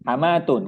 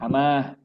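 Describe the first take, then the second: First: The word ends with a full t-u-n syllable. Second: The word ends with a soft h sound. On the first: The final letter carries a vowel mark. "Kalau berharokat" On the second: The final letter carries no vowel mark. "kalau tidak berharokat bacanya gimana?"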